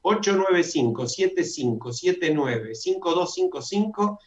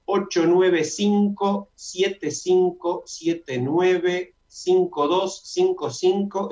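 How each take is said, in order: First: Measured number read-out, a little brisker; repeated dictation. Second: Very slow number read-out, digit groups spaced apart; slow dictation. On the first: Host repeating the Zoom number for listeners, measured dictation. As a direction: repeat the digit groups evenly and clearly. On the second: Host giving listeners a Zoom number, slow dictation. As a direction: dictate it slowly and higher, digit by digit. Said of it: "Lo voy a decir lentamente". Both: Shown as a demonstration.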